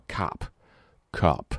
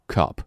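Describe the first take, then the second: First: Cup with mouth opened too wide; wrong wide cup. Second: Cup with a small mouth and reined-in vowel. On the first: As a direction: overopen cup like ha. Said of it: "千万不要cup". (嘴张太大的错误cup) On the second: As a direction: keep cup small and tight. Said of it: "嘴收小一点，音也收一点". (嘴收小、音收一点地读cup) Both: Shown as a demonstration.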